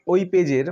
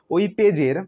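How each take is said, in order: Both takes have the same delivery.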